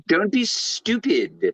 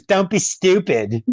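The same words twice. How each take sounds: First: Put-on slow, much higher accented put-down; Surge's accent. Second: Put-on Surge's accent. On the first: Friend mimics Surge brushing off Billy, slow and high. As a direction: drag it out the way Surge said it. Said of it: "but the way he said". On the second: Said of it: "he says".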